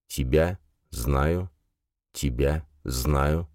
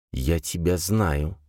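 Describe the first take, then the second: First: Slow, softer, fading echo. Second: Echoing voice. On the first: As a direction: echo fading away slowly. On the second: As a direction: let the words echo slowly. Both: Acted. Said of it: "Отголовки слов заметались".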